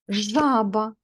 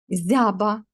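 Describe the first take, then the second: First: The word begins with a zh sound. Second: The word begins with a soft z sound. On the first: The speaker calls it right. "Ой, правильно" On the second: The speaker calls it wrong. "Так же само зі звуком ж"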